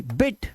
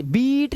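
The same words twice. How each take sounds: First: बिट with a brief i; quick short vowel. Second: बीट with a high, drawn-out ee; long vowel. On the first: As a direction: snap through the vowel in बिट. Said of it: "इस तरह से तेज". (बिट में छोटी, तेज इ) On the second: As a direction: stretch the ee in बीट on raised pitch. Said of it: "बीट नहीं करना". (बीट में ऊँची, लंबी ई) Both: Shown as a demonstration.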